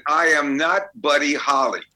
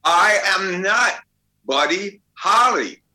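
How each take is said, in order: First: Firm denial with weight on NOT; flatly refuse, leaning on "not"; stubborn refusal. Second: Slow, much higher and louder, every word hammered; stubborn loud refusal. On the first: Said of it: "said to this little kid". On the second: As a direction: bellow the denial slowly, word by word. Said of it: "He says". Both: Retold or imitated.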